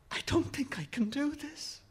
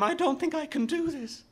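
First: High, soft, fearful confession; frightened boy losing his nerve; panicky. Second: Very high, panicked outburst; frightened boy losing control; rising panic. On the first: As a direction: say it small and high, holding back panic. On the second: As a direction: let the panic climb into a high cry. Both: A narrator's reading. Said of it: "the panic rising in him".

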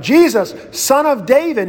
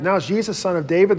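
First: Raised, higher call to Jesus; crying out. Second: Said in the usual way. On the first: Retold or imitated. Blind beggar calling out to Jesus, a raised plea. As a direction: call out over the crowd, pleading. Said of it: "the blind guy cries out". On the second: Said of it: "it's heightened from Jesus of Nazareth".

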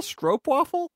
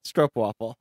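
First: Stroopwafel asked high with a rising tune; a high, unsure Stroopwafel?; questioning pronunciation. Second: Stroopwafel said firmly, the way just heard; confident pronunciation. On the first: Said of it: "Can I get a pronunciation on that". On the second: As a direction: repeat Stroopwafel firmly, as learned. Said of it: "I got it". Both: Shown as a demonstration.

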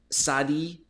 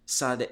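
First: Sadi said SAH-dee, two syllables, rising; Sadi with ee ending. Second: Sade said SAHD, clipped to one syllable, falling. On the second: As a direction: Sade as plain SAHD, no final vowel. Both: Shown as a demonstration. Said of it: "I'm not sure I'm pronouncing that correctly".

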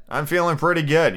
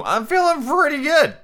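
First: Said in the usual way. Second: Much higher, pleased tipsy lilt; tipsy sing-song. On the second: Retold or imitated. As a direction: sing it out like a happy drunk. Retelling getting tipsy.

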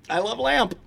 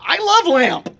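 First: Said in the usual way. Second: Higher, dim-witted Brick voice; Brick impression. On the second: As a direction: say it like a dopey Brick. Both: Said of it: "we can do the whole bit".

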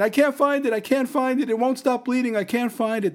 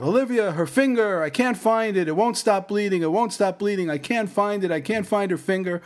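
First: Imitating the wife, even more panicked. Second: High, frantic pleading; imitating his panicked wife on the phone. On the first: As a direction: push it up into near-hysteria. Wife repeats panicked phone words. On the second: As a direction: voice her panic, pitched way up.

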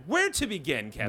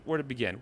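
First: Raised, swooping pitch; theatrical question. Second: Said in the usual way. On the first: Real, not acted. Host asks co-host where to begin, theatrical raised voice. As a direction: put the question grandly to your co-host.

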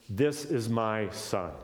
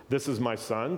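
First: Drawn out, each word slow; slow solemn quote. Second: Said in the usual way. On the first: Acted. Teacher quoting the Father at the baptism, slow and solemn. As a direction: let the Father's words land slowly.

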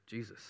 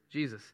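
First: Much softer, low and reverent; soft lowered reverent voice; hushed reverent answer. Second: Said in the usual way. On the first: Real, not acted. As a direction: breathe the name quietly. Answers own question, hushed.

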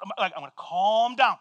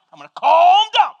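First: Said in the usual way. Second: Far from calm, louder and tense; loud mock calm-down. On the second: Pastor shouting at himself to calm down after the dog chase.

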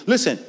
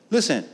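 Both takes have the same delivery.

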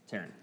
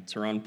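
First: "Taryn" with the stress on the first syllable; corrected syllable stress. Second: "Teron" with the stress on the second syllable; wrong-syllable stress. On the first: Reader correcting a birthday name, "Taryn" stressed on the first syllable. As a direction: say "Taryn" as TA-ryn, softly. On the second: Reader misreading a birthday name, "Teron" stressed on the wrong syllable. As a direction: say "Teron" as te-RON, weight on the end. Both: Real, not acted. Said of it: "Put the wrong emphasis".

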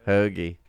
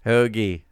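No difference in how they are said.

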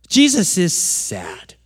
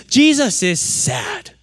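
First: Said in the usual way. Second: Rising, slow "Jesus is sad." with pitch lifted on "Jesus"; naive reading. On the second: Shown as a demonstration. Preacher voicing the common reading, slow with a rising lift. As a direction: say "Jesus is sad." slowly, lifting up like the obvious reading. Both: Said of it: "what we think of is".

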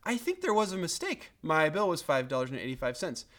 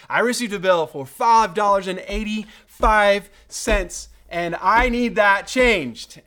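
First: Mild, unforced polite complaint; calm, polite query. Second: Loud, high and forceful demand; indignant customer laying down the law, louder and higher; indignant complaint. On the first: Customer politely querying a bill by phone, calm. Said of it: "all I had to do was". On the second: Customer confronting the propane company, indignant. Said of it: "with indignation". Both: Retold or imitated.

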